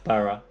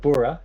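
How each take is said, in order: First: The ending is said as 'bara'. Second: The ending is said as 'bura'. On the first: The speaker calls it right. "it's bara" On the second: The speaker calls it wrong. "instead of bura"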